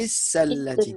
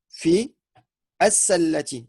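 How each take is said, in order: First: Fi runs straight into sallati without stopping. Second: A stop follows fi, then as-sallati starts anew. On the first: "comme on fait la liaison avec le fi" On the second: "si tu t'arrêtes ... tu devras reprononcer le alif"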